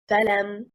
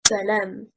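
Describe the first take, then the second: First: The stress is on the first syllable. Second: The stress is not on the first syllable. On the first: It is not a real word. The speaker calls it wrong. "If we stress on the first haraka, it becomes salam. It does not have meaning" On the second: It is a conjunction plus an assertive particle. The speaker calls it right. "is two words, a conjunctive fa plus an assertive lam"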